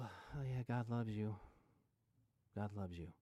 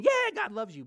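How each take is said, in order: First: Flat, bored, lower by the last line; dead, joyless "God loves you", trailing off quieter; unconvincing, flat. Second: Much louder and higher, forced excitement; loud, over-the-top "Yeah, God loves you"; overhyped. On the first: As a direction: say it like you don't believe it at all. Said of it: "Wow, that's convincing". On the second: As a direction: pump it up like a cheesy cheerleader. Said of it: "It also doesn't mean". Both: Shown as a demonstration.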